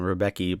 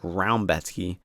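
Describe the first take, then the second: First: The name is said in an anglicized way. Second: The name is said in a Polish-like way. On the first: This is how the speaker usually says it. "I call him Rebecki" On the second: This is how the fighter's own side says it. "I think they pronounce it like Raumbetsky"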